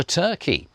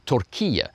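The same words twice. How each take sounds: First: Said in the usual way. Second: Turkiye said the Turkish way, ending kee-yeh; native pronunciation. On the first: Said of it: "Sorry, Turkiye". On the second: Shown as a demonstration. Activist correcting himself after saying Turkey, Turkiye in Turkish pronunciation. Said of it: "say it that way just for Turkey".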